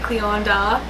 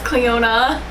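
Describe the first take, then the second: First: The name is said with a d sound. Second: The name is said without a d sound. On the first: The speaker calls it wrong. "I always like want to say Cleonda because of the D" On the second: The speaker calls it right. "but it's Cleona"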